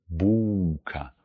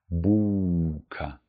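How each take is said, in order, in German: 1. Der mittlere Laut ist ein verlängerter U-Vokal. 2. Der mittlere Laut ist ein verlängerter U-Vokal.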